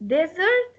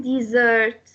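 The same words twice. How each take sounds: First: "desert" said DEZ-ert; stress on first syllable. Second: "desert" said di-ZERT; stress on second syllable. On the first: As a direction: lean on the des of "desert". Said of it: "stress will go on the first part". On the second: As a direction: lean on the sert of "desert". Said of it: "second part". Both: Shown as a demonstration.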